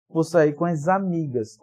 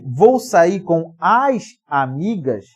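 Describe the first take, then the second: First: The words are run together into one flow. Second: The words are said separately, not run together. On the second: "Em vez de você dizer aí"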